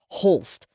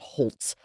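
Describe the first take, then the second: First: The name ends with an 'lst' sound. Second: The name ends with an 'lts' sound. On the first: The speaker calls it right. "Holst, not Holtz" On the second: The speaker calls it wrong. "not Holtz"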